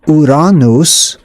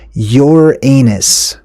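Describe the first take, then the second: First: The name is said a non-Americanized way. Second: The name is said the common Americanized way. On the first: The speaker calls it right. "that's the proper way to say it" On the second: The speaker calls it wrong. "That's just an Americanized cowboy way of saying something like that"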